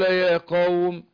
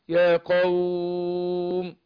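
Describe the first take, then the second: First: The vowel in qawm is held for two counts. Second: The vowel in qawm is held for four counts. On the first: "اثنين" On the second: "أربعة"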